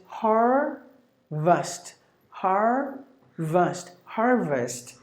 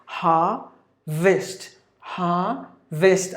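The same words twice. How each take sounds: First: "harvest" with the R sounded, HAR-vust; American "harvest", clear R in the first syllable; American pronunciation. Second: "ha-vist" in two slow parts with no R; British r-less "ha-vist", slowly sounded out; British pronunciation. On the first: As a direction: say "harvest" American-style, slowly split, then joined. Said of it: "if you go to the American way". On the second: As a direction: say "ha-vist" British-style, R dropped, syllables spaced out. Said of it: "if you go to U K way". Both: Shown as a demonstration.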